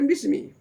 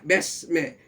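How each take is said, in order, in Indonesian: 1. Vokalnya bunyi i yang jelas. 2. Vokalnya agak condong ke bunyi e. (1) "bukan bukan Bismi" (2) "Dia baca Besme, bukan bukan Bismi"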